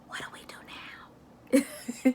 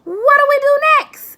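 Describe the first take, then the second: First: It is said in a whisper. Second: It is said in a very high voice.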